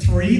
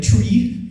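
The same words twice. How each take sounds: First: Said in the usual way. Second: "Tree" for three, hard t in place of th. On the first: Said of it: "instead of". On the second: Shown as a demonstration. Trainer recalls second-language slips, "Tree" for three. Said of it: "instead of three".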